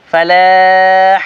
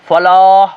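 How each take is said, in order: First: فلاح slow and thin, light vowel; thin drawn-out فلاح. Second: فلاح with thick heavy vowel; wrong heavy فلاح. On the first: Teacher showing the correct light form. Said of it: "فلاح یہ سارا پتلا ہوگا". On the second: Teacher showing the wrong heavy form. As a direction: fat فلاح shown as mistake. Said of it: "فلاح موٹا نہیں". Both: Shown as a demonstration.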